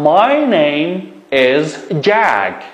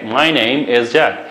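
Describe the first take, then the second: First: My name is Jack, said very slowly, word by word; slow model sentence. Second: Said in the usual way. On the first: Shown as a demonstration. Teacher dictating a model sentence for pupils. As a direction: spell it out slowly for the class.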